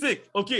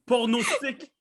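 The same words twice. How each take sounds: First: "Pronostic" said pro, with the r right after p; "Pronostic" repeated after correction, pro first; corrected pronunciation. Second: "Pornostic" with the r moved after the o, said as porno-stic; "Pornostic", r slipped after the first o; mispronounced word. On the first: Shown as a demonstration. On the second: Real, not acted. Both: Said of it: "Non, c'est pas pornostic?".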